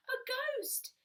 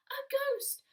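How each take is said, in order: First: Frightened cry. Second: "A ghost!" cried out much higher and louder; frightened cry. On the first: Little Bear crying out again at the ghost. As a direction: cry it again, still scared. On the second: Little Bear crying out in fright at the sheet. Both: Acted. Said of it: "he cried".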